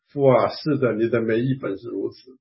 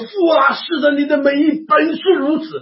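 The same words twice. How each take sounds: First: It is said very softly and quietly. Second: It is shouted out at full volume. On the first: The speaker calls it wrong. "我只好呢小小声说" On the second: The speaker calls it right. "我就大声的喊起来"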